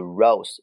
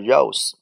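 First: The word ends with a voiced z sound. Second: The word ends with a voiceless s sound. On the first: The speaker calls it right. "读rose" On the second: The speaker calls it wrong. "不读rose"

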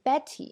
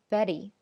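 First: The middle t is a crisp t sound. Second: The middle t is a quick d-like tap. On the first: The speaker calls it wrong. "这是我们以前认为要这样读" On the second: The speaker calls it right. "它是读一个非常短的d 的音"

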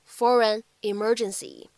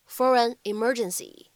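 First: Only one pair of words is linked together. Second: Only one pair of words is linked together.

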